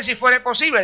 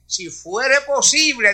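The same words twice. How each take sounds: First: "fuere" lifted and punched; stress on fuere. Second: "si fuere posible" drawn out slow, rising on each word; slow, weighty "si fuere posible"; stressed slowly. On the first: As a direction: hit "fuere" inside "si fuere posible". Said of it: "Y ese". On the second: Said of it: "Y ese "si fuere posible". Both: Shown as a demonstration.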